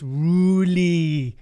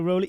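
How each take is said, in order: First: The name is pronounced as Ruli. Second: The name is pronounced as Rolly. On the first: The speaker calls it right. "It's Ruli" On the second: The speaker calls it wrong. "You always call me Rolly"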